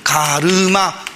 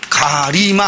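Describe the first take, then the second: First: The second vowel is the back vowel 'eu'. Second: The second vowel is the front vowel 'i'. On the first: The speaker calls it right. "으가 되는 겁니다" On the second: The speaker calls it wrong. "이 안 되고"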